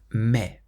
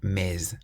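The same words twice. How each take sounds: First: The final S is not pronounced. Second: The final S is pronounced. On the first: The speaker calls it right. "we pronounce the word for but as mais" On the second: The speaker calls it wrong. "rather than mais"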